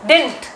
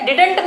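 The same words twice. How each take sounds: First: "didn't" squeezed to one syllable, dint; correct pronunciation. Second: "Didn't" with a full middle vowel, di-dunt; wrong pronunciation. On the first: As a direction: say "didn't" short as dint, the right way. ("didn't" को छोटा करके डिंट, सही तरीके से) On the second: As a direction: spell out "Didn't" in two clear syllables, the wrong way. ("Didn't" को दो साफ़ हिस्सों में, डि-डंट, ग़लत तरीके से) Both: Shown as a demonstration. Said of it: "Didn't नहीं पढ़ते हैं".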